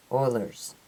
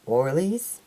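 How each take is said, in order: First: Said in the usual way. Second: "Oilers" slipped into "OR-leez", rising at the end; "Oilers" with a wrong ee ending, questioning; mispronounced Oilers. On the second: Real, not acted. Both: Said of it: "From the Oilers, there you go".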